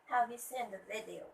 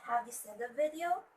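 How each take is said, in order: First: "Have you seen the video?" dropping at the end of "video"; falling intonation. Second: "have you seen the video?" climbing on "video"; rising intonation. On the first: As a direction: let the pitch fall on "video". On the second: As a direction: lift the pitch at the end of "video" as a question. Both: Shown as a demonstration. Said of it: "the rising and falling intonation".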